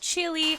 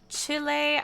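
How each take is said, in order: First: It is said with an English pronunciation. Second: It is said with a Spanish pronunciation. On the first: "in English, it is commonly pronounced as" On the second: "as it's pronounced in Spanish"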